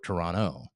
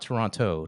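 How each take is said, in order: First: The second T is dropped. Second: The second T is clearly pronounced. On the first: The speaker calls it right. "you say it right" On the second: The speaker calls it wrong. "If you say with the accented T"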